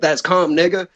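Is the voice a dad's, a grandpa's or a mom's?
dad's. It is said in the dad's voice.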